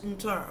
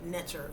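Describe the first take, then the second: First: No vowel is sounded between N and T. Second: A vowel is sounded between N and T. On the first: This is the non-English way of saying it. "but it's Nter" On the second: This is the English way of saying it. "That's the English pronunciation of it"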